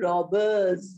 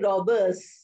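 First: The word ends with a buzzing z sound. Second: The word ends with a hissing s sound. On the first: The speaker calls it right. "I'm saying robbers" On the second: The speaker calls it wrong. "I'm not saying robbers"

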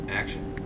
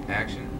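No difference in how they are said.

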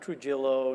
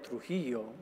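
First: The name is said with an English pronunciation. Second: The name is said with a Spanish pronunciation. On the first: The speaker would be adapting to fit in with others. The speaker calls it wrong. "not Trujillo" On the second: The speaker calls it right. "my name has always been Trujillo"

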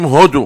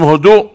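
First: The stress is on the first syllable. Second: The stress is on the last syllable. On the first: It names the country near Japan. The speaker calls it wrong. "ראשית כל לא אומרים הודו" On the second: It means give thanks. The speaker calls it right. "אומרים הודו. הודו, לשון הודעה"

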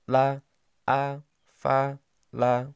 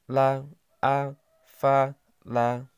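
Both takes have the same delivery.

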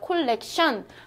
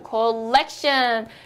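First: The middle syllable is not stressed. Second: The middle syllable is stressed. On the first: The speaker calls it wrong. "우리는 콜렉션 이러죠" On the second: The speaker calls it right. "가운데를 강세를 줘요"

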